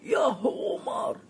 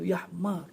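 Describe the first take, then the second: First: A full u vowel is sounded after h. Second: The vowel after h is barely sounded. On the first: It feels like a harsh insult. "guna dhammah. Hak paling berat dia bagi cukup-cukup" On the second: It does not feel like an insult. "Kasrah pun tak bunyi, lebih ringan daripada baris biasa"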